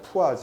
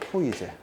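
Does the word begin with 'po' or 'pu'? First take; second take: pu; po. First: The word is said as pu-a-jeu. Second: The word is said as po-i-je. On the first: It is read in another common way. "푸아즈라고 읽는 경우도 많습니다" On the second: It is read the way it is written. "저는 그냥 포이제 읽는 대로 읽는데"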